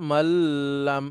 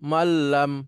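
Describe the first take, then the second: First: The word is drawn out with a held nasal. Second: The word is said quickly without holding. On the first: The speaker calls it wrong. "এখানে অপেক্ষা করা যাবে না, মাল্লাম এভাবে বলা যাবে না" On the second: The speaker calls it right. "দ্রুত মাল্লাম"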